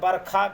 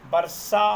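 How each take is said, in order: First: The middle consonant is a kh sound. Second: The middle consonant is a retroflex sh sound. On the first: "ख वर्ण में बरखा कहते हैं" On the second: "वर्षा मूर्धा से होता है"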